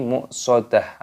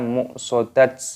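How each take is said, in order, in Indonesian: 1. Kata ini berakhir dengan bunyi 'h' yang lembut. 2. Kata ini berakhir dengan bunyi 't' saja. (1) "tapi muqsadah" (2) "atau juga muqsadat"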